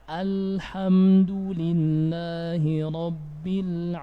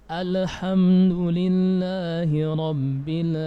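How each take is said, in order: No difference in how they are said.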